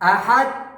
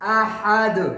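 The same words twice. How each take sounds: First: The final d is cut off without release. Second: The final d is released with an echoing bounce. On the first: The speaker calls it wrong. "यानी उन्होंने आवाज को बंद कर दिया।" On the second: The speaker calls it right. "सही आवाज क्या है?"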